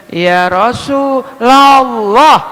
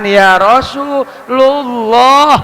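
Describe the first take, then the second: First: RASULULLAH slowly split, Rasu... LA-llah; slow demo of "Rasulullah" with "a" after the L; correct fathah reading. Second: RASULULLAH slowly split, Rasu... LU-llah; slow demo of "Rasulullah" with mistaken "u" after the L; wrong vowel reading. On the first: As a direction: stretch it out, Rasu-LAAA-llah. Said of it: "Jangan ya Rasulullah". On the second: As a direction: stretch it out, Rasu-LUUU-llah. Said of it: "itu salah bacanya". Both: Shown as a demonstration.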